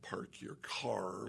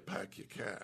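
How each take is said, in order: First: The r sounds are clearly pronounced. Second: The r sounds are dropped. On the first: "like you do in Ohio" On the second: "So in Boston"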